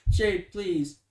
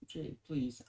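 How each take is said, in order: First: Pleading Jade, louder, urgently; loud plea. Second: Pleading Jade, softer, almost under the breath; soft plea. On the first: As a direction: call out to her, begging. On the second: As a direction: beg her gently and quietly. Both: Acted. Pleading, then repeated softly.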